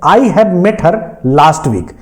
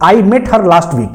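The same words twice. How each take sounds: First: Each word laid out slowly for dictation; teacher dictating an English example; slow example read. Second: Each word laid out slowly for dictation; teacher slowly reading the corrected example. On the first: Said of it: "पहला example है". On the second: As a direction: read the sentence slowly for students to copy. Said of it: "जैसे मैं कह दूं". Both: Shown as a demonstration.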